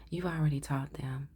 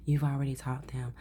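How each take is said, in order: First: Said in the usual way. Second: Flat robotic monotone. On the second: Real, not acted. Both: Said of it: "Oh, with the robotic voice".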